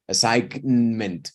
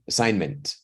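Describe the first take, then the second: First: The G sound is pronounced in the middle. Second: The G sound is left out entirely. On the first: The speaker calls it wrong. "It's impossible to sound it. Like assignment. It's terrible" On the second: The speaker calls it right. "don't sound out the G"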